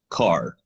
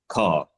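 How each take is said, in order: First: The R at the end is clearly pronounced. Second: The R is dropped into an ah vowel. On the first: "people in America would be saying the word car, like I'm saying it right now, which is car with a rolling R" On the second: "people coming from Britain... would be pronouncing the R as ah"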